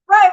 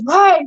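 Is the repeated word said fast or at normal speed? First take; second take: fast; normal. First: The word is repeated very fast. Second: The word is repeated at normal speed. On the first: "he sometimes speed it up too. He says it so fast" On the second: "he always says"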